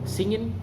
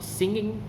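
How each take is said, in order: First: The word ends with an n sound. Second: The word ends with an ng sound.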